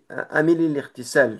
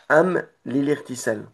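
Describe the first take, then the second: First: An i vowel links am to lil. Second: The m of am is closed, no vowel. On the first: The speaker calls it wrong. "à la place du soukoun, ce sera comme un, un i ici" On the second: The speaker calls it right. "on met bien une- un soukoun, donc am, et on repart avec li"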